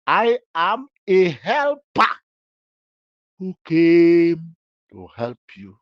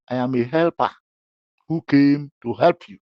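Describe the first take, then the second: First: Helper said slowly, pitch higher, stressed; slow emphatic repeat. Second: Said in the usual way. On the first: Shown as a demonstration. To the accused, repeating slowly for emphasis. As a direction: spell out "I am a helper" slowly and firmly. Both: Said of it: "I will answer you".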